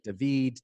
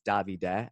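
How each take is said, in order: First: The name ends on a consonant sound. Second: The name ends on an extra vowel sound. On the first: The speaker calls it wrong. "I think David" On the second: The speaker calls it right. "it's Davide, actually, for the Italian pronunciation"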